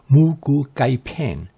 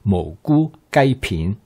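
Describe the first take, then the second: First: It is said the familiar Americanized restaurant way. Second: It is said the actual Cantonese way. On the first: This is the name the dish is commonly known by. "this dish is known as" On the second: This is how the name is really pronounced. "the actual pronunciation is"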